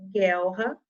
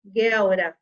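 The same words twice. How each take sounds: First: "guelra" with a guttural H-like R after the L; "guelra", its R said hard in the throat; strong R. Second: Louder wrong "guelra", lightly tapped R; wrong weak R. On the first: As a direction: read "guelra" correctly as guel-ha. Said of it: "Som forte". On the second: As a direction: deliberately say "guelra" with the R flapped like in "caro". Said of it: "Eu nunca poderia ler". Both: Shown as a demonstration.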